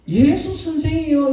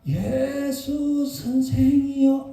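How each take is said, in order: First: It is called out in a full, loud voice. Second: It comes out in a faint, weak voice. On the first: A healthy person calling out with normal strength. "우리 같으면 예수 선생이여 이렇게 불렀을 건데" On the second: The disease has ruined the voice, so little sound comes out. "아마 이 정도 소리밖에 안 났을 거예요"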